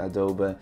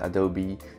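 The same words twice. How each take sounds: First: Adobe is said with a Dutch pronunciation. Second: Adobe is said with an English pronunciation. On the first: "De Nederlanders noemen het Adobe" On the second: "de Engelsen, die noemen het Adobe"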